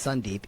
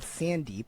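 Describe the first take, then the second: First: The first vowel sounds like the 'u' in sun. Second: The first vowel sounds like the 'a' in sand. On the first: This is the real form of the name. The speaker calls it right. "even though it's Sundeep" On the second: This is how others mistakenly say the name. The speaker calls it wrong. "constantly called Sandeep"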